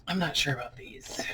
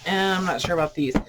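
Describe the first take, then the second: First: Breathy whisper to herself, unsure; hushed uncertain whisper; whispered aside. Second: Said in the usual way. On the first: Real, not acted. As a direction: whisper the doubt under her breath. Muttering doubt over old books.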